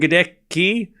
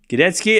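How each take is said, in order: First: The middle of the name has a 'k' sound. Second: The middle of the name has a 'ts' sound.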